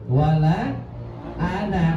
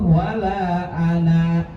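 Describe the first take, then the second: First: The last vowel of ana is short. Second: The last vowel of ana is long. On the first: The reading continues without stopping. "ketika dibaca wala ana ananya itu dibaca pen pendek" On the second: The reading stops at this word. "berhenti di situ wala ana dibaca pan panjang"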